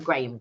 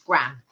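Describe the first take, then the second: First: It is said the local, non-American way. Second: It is said the American way. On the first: "But here we would pronounce them graham crackers" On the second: "They're pronounced uh, in the States gram"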